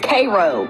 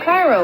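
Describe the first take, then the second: First: It is pronounced the local Tennessee way. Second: It is pronounced like the Egyptian city. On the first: "Apparently it's Cairo" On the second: "Cairo, like Egypt"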